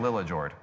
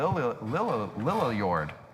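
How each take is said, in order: First: The name is said with an English pronunciation. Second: The name is said with a Swedish pronunciation. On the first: "but I'm going to say Lillajord" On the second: "I was trying to make the Swedish pronunciation because if that was Swedish, it would be"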